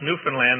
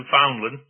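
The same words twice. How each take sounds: First: The last syllable is stressed, rhyming with understand. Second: The last syllable is weak and unstressed. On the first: This is how local people say it. The speaker calls it right. "that's pronounced Newfoundland" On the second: This is how outsiders say it. The speaker calls it wrong. "not like you Americans pronounce it"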